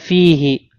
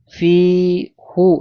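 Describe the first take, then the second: First: The word ends with an i vowel. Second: The word ends with a u vowel. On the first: The speaker calls it right. "Contohnya fihi" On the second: The speaker calls it wrong. "Ya fi fi hu ini salah"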